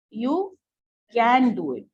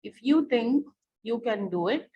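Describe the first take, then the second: First: You can do it with a loud, punched can do it; stress on you can. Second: Said in the usual way. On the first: Shown as a demonstration. Teacher asks class which words carry the emphasis, then hits can do it. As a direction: lean on can do it to show emphasis. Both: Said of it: "what is the emphasis being added here?".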